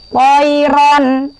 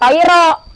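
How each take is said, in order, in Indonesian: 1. Bunyi n di akhir terdengar jelas. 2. Bunyi n di akhir dihilangkan. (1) "dibacanya jelas" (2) "bukan toiro"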